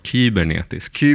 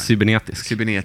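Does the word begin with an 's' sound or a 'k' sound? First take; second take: k sound; s sound. First: The word begins with a k sound. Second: The word begins with an s sound.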